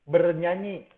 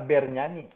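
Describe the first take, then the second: First: The first vowel is a weak schwa. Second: The first vowel is a clear e. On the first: The speaker calls it right. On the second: The speaker calls it wrong.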